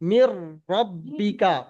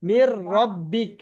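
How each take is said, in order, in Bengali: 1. শেষের k-এর পরে a স্বরধ্বনি আছে। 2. বাক্যাংশটি একটি খালি k ধ্বনি দিয়ে শেষ হয়। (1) "কাফটা আমরা জবর পড়ি তো সব সময়" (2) "লাস্টের অক্ষরটা সাকিন হয়ে গিয়েছে"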